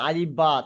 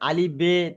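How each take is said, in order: First: The second word ends with an 'a' vowel. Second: The second word ends with an 'e' vowel. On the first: This is the current way of reading. The speaker calls it right. "এই আলিফ বা গুলো মারুফ" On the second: This is the old-fashioned way of reading. The speaker calls it wrong. "আর আলিফ বে এগুলো সব কি মাজহুল"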